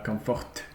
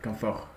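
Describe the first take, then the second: First: The word ends with a t sound. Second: The word ends without a t sound. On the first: The speaker calls it wrong. "I don't think we should say uh" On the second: The speaker calls it right. "sans T"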